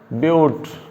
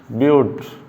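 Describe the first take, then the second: The two takes are said the same way.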